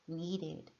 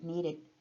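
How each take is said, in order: First: The middle d is pronounced clearly and fully. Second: The middle d is softened into a quick tap.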